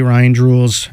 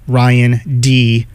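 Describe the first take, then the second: First: The name is said fast and run together. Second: The name is said slowly with separated parts.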